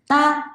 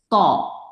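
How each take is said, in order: First: It sounds light, with the tongue not lowered. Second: It sounds heavy and hollow, with the tongue lowered. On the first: The speaker calls it wrong. "따 하면 가벼운 소리예요" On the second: The speaker calls it right. "혀를 내리면요"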